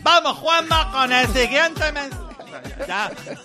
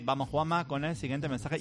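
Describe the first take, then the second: First: It is shouted loudly like a sports presenter. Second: It is spoken in a quiet, low voice. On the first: "Ya hablo gritando" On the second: "lo hacía en un tono mucho más bajito"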